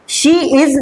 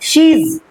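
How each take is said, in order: First: The two words are said separately and fully. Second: The two words are merged into one syllable. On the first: The speaker calls it wrong. "शी इज नहीं" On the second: The speaker calls it right.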